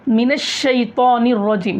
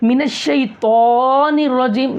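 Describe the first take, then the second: First: The vowels are lengthened only slightly. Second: The vowels are stretched out very long. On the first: The speaker calls it right. "वहाँ पर थोड़ा खींचना है" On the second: The speaker calls it wrong. "बहुत ज़्यादा खींच देते"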